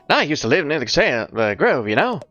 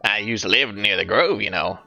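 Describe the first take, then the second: First: It is said in a put-on grifter voice. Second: It is said in his natural voice.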